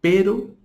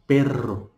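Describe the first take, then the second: First: Pero with one quick flick of the r and a rising tune; Spanish single tap r. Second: Perro with a rolled trilled rr, falling tune; Spanish trilled rr. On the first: (pero com r simples, vibrante curto) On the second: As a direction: roll the rr in perro. (perro com rr vibrante múltiplo) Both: Shown as a demonstration.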